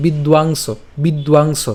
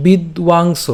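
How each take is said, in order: First: "বিদ্বাংস" said as one whole word, "bidwangso"; joined up. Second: "বিদ্বাংস" split as "bid, wang, so"; "বিদ্বাংস" taken apart, with w for the ব; broken into syllables. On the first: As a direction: run "বিদ্বাংস" together without breaks. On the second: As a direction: sound out "বিদ্বাংস" in separate pieces. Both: Shown as a demonstration. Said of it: "এই জায়গাটা আমরা একসাথে".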